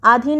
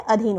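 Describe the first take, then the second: First: आधीन with long first 'aa'; wrong long vowel. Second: अधीन with short first 'a'; correct short vowel. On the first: Teacher repeating the mistake, long 'aa' starting आधीन. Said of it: "आधीन नहीं होता है". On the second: Teacher repeating correct form, short 'a' starting अधीन. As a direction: keep the start of अधीन brief. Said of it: "अधीन होता है". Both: Shown as a demonstration.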